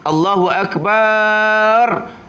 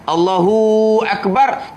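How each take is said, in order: First: The syllable 'bar' is drawn out long. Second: The syllable 'hu' is drawn out long. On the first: "tambah alif lepas ba sebelum ra" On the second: "tumbik tumbik waw pula lepas he"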